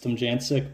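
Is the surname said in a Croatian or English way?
English. The surname is said the English way.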